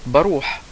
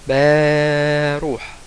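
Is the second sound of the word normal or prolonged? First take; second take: normal; prolonged. First: The second sound is said at normal length. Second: The second sound is stretched out very long. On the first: "هيجي يقول كلمة بروح" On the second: "هيقولها باروح باروح"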